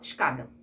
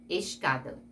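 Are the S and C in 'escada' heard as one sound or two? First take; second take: one sound; two sounds. First: The S and C merge into one sound. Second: The S and C are both pronounced separately. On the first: The speaker calls it wrong. "Você não fala escada" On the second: The speaker calls it right. "Você pronuncia o S e pronunciou lá o C"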